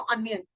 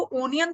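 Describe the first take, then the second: First: अनियन said an-yun with an a sound at the start; correct pronunciation. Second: ओनियन with a full o at the start; wrong pronunciation. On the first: Teacher showing students the right way, opening on a. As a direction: open अनियन on a short a, not an o. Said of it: "आप क्या बोलते हो?". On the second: Teacher warning students against a full o sound. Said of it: "that is wrong". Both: Shown as a demonstration.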